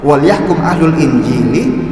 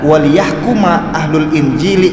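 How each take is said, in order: First: The l is unvoweled and the verb ends in kum. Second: The l takes an i and the verb ends kuma. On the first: This is the first, common reading of the verse. "Yang pertama itu kan wal yahkum" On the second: This is another accepted reading of the verse. "lamnya itu, ya, itu dikasrahkan waliyahkuma"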